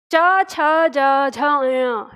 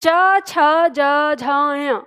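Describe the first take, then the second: First: च छ ज झ य from the palate, trailing down; repeated recital of च छ ज झ य, falling; palatal sounds again. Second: च छ ज झ य from the palate; palatal sounds. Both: Shown as a demonstration. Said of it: "तो बोलिए".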